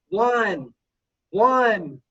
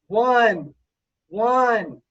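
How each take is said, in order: No difference in how they are said.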